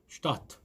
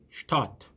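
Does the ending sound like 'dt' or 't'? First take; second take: t; t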